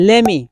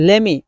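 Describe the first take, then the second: The two takes are said the same way.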